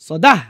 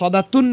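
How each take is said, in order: First: The word ends with a soft h sound. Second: The word ends with a t sound and nunation. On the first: The reciter stops at the verse end. The speaker calls it right. "থামার সময় হা হয়ে যাবে" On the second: The reciter is not stopping at the verse end. The speaker calls it wrong. "এখানে সদাতুন না বলে"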